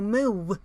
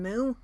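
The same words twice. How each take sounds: First: The moo ends with a subtle w sound. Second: A plain moo, like a cow's. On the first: The speaker calls it right. "you go moo" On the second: The speaker calls it wrong. "Instead of going moo like a cow"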